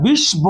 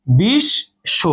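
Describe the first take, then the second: First: বিশ্ব with the ব sounded, bish-bo; wrong pronunciation. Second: বিশ্ব as bish-sho, ব silent, শ doubled; right pronunciation. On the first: Teacher showing the wrong way, বিশ্ব with the ব sounded. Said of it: "এখানে বিশ্ব কিন্তু বলি না". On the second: Teacher showing the right way, বিশ্ব with doubled শ. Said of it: "এখানে আমরা কি বলি?". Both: Shown as a demonstration.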